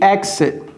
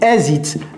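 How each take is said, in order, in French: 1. Il est prononcé avec un accent américain. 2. Il est prononcé avec un accent français. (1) "L'accent est très important" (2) "ne dites pas exit. Si vous dites exit, les Américains vont dire, hein?"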